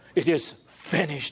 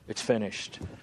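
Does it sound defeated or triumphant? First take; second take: triumphant; defeated. First: It sounds triumphant and victorious. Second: It sounds defeated and tragic.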